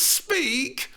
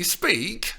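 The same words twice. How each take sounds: First: Put-on high girlish "speak!" falling firmly; pestering. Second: Put-on high girlish "speak" rising; demanding. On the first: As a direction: drop "speak" as a firm order. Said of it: "pestering her". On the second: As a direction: end "speak" with a pleading rise. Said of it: "she demanded". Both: A narrator's reading.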